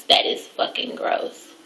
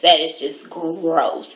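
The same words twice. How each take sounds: First: Whispered, drawn-out disgust. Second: Slow, low disgust. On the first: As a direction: whisper it in revulsion. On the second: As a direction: drag out the disgust. Disgusted repetition. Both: Real, not acted.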